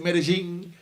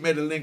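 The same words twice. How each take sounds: First: The name is said the way locals say it. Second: The name is said with a Jamaican pronunciation. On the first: This is how the people there say it. "They pronounce it" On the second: This is the speaker's own way of saying it. "I just say Medellin because me a Jamaica"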